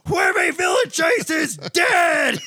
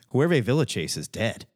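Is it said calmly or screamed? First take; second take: screamed; calmly. First: It is screamed loudly. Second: It is said calmly, at normal volume.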